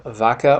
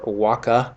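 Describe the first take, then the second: First: It begins with a V sound. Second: It begins with a W sound. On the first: The speaker calls it wrong. "you don't say a V" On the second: The speaker calls it right. "In Latin, you don't say a V, you say a W"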